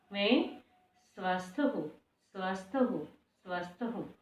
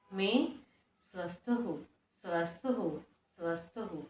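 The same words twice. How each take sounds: The two takes are said the same way.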